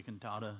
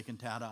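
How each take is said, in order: First: Cantata with the middle A as in "father"; broad-A pronunciation. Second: Cantata with the middle A as in "cat"; flat-A pronunciation. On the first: Preacher giving his own way, cantata with an open "ah". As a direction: say cantata as "kun-TAH-tuh". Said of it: "I say cantata". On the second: Preacher teasing listeners on their word, cantata with a short "cat" A. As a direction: say cantata as "kun-TAT-uh". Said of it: "You say cantata". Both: Shown as a demonstration.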